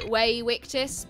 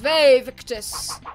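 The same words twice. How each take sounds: First: Both words begin with a W sound. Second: Both words begin with a V sound. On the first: The speaker calls it right. "it's actually pronounced um like a W" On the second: The speaker calls it wrong. "everyone goes"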